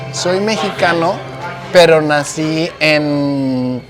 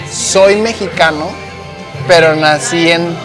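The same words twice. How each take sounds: The two takes are said the same way.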